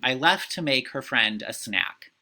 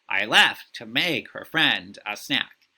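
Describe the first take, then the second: First: The rhythm is subtle, like normal speech. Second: The da-dum beat is strongly exaggerated.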